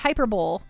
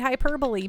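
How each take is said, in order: First: The word ends like 'bowl', rhyming with amphibole. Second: The word ends with a 'bully' sound. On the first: The speaker calls it wrong. "amphibole is how I used to pronounce hyperbole" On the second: The speaker calls it right. "that's not how you say hyperbole"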